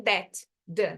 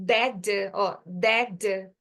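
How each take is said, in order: First: "that" and "the" said apart; separated words. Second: "that" run into "the" as one D sound; joined sounds. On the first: Teacher shows the pause to avoid, "that" apart from "the". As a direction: break between "that" and "the". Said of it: "não tem pausa". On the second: Teacher shows two like sounds becoming one, linked "that". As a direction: merge the end of "that" into the following "the", no pause. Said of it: "eu vou juntar, vira uma coisa só". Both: Shown as a demonstration.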